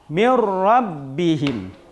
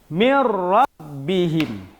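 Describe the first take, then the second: No difference in how they are said.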